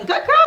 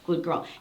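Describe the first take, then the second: First: It is said in an excited, high-energy voice. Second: It is said in a calm, low-energy voice. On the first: The dog is being worked up. The speaker calls it wrong. "I'm going to pump her all up again" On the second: The dog is being settled down. The speaker calls it right. "notice the change in my voice when I teach her this"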